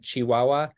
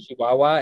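First: The word begins with a sharp ch sound. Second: The word begins with a soft sh sound. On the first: This is the standard way to say it. "instead of a ch" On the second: This is how people from Chihuahua say it. "it's more of a sh sound"

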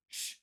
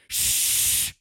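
First: The shush is soft and mild. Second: The shush is loud and forceful. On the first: A polite first request for quiet. "I was going" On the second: An escalated, angry demand for quiet. "I brought the big guns, dude. I went like the full on"

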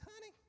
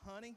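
First: It is said in a put-on woman's voice. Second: It is said in his normal man's voice.

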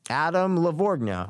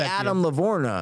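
First: A soft G sound is heard in Lavorgna. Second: No G sound is heard in Lavorgna. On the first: "I put a little G in there" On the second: "If the G wasn't Adam, in there"

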